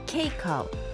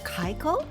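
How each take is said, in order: First: The first syllable sounds like 'cake'. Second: The first syllable sounds like 'kye'. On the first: The speaker calls it right. "it's actually pronounced like cake with an O" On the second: The speaker calls it wrong. "or Kaiko"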